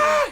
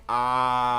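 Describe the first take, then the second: First: It is an intense, loud scream. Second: It is a mild, quiet sound.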